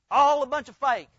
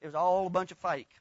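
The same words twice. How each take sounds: First: Louder, punching all; repeated louder for emphasis. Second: Said in the usual way. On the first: Shown as a demonstration. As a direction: hammer home the repeat.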